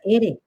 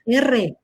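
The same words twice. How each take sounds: First: The r sound is a single tap. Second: The r sound is a strong trill. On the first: The speaker calls it wrong. "no se llama R" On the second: The speaker calls it right. "la letra se llama R"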